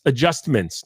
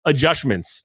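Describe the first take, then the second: First: "adjustments" with a clear st, "ad-just-ments"; "adjustments" said carefully and correctly. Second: "adjustments" said as "adjushments", a sh sound for the st; "adjustments" with sh in place of st; mispronounced adjustments. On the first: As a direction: fix it to a crisp "adjustments". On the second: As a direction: slur the middle of "adjustments" into "adjushments". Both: Shown as a demonstration. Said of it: "not adjustments".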